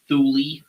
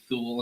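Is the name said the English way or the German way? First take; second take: English; German. First: The name is said with English pronunciation. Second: The name is said with German pronunciation. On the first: The speaker calls it wrong. "and not" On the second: The speaker calls it right. "actually pronouncing it correctly"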